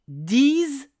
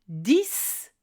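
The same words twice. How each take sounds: First: The final consonant is pronounced as z. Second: The final consonant is pronounced as s. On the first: "si le mot qui suit commence par une voyelle ou un H muet" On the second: "à la fin d'une phrase, seul ou dans un calcul"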